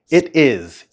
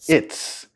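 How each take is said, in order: First: The two words are said fully and separately. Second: The two words are joined into one syllable.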